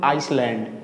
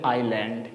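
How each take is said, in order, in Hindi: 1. पहले स्वर के बाद s की ध्वनि सुनाई देती है। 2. पहले स्वर के बाद s की कोई ध्वनि सुनाई नहीं देती। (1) "इसको बोलते हैं लोग आइसलैंड, ये गलत है" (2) "ये बोलेंगे आइलैंड"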